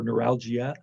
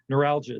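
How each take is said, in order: First: Every vowel is pronounced fully and distinctly. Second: Some vowels are reduced, as in everyday speech. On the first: "if you want to be a little bit more pronunciation of all the vowels" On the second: "kind of the typical way it's said"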